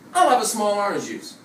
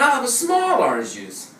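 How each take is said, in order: First: The word small gets no extra stress. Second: The word small gets extra stress. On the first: The speaker calls it wrong. "Doesn't this sound strange in English?" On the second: The speaker calls it right. "It should be like this"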